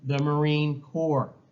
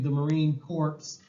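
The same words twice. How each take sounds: First: Corps ends without any S sound. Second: Corps ends with an audible S sound. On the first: The speaker calls it right. "You don't pronounce the S" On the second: The speaker calls it wrong. "You aren't going to join, hopefully"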